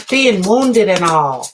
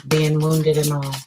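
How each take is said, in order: First: Slow and louder, hammed-up folksy drawl; corny sitcom kid voice; old-timey kid voice. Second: Said in the usual way. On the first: Shown as a demonstration. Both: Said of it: "I don't even talk like that".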